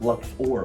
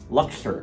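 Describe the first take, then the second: First: The last syllable has an 'or' vowel. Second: The last syllable has an 'er' vowel. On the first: "with an or, like an O" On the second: "like with an E"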